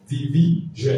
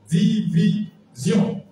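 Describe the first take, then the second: First: Division with the English -zhen ending; English pronunciation. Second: Division drawn out slowly, French -sion ending; slow French pronunciation. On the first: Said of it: "c'est jeune". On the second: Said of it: "vous lisez les débuts comme en français". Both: Shown as a demonstration.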